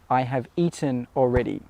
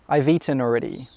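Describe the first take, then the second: First: Each word is said separately and in full. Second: It is quick, contracted, and the words run together.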